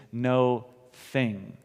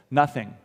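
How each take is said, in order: First: "no thing" split into two slow, separate words. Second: "Nothing" said as one word, NUH-thing; "Nothing" run together as one ordinary word. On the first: Preacher spelling out his point: "no thing" said as two words. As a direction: pull "no thing" apart, a gap between "no" and "thing". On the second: Preacher saying the word as one: "Nothing" run together. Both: Shown as a demonstration. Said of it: "when I say nothing, what I mean is no thing".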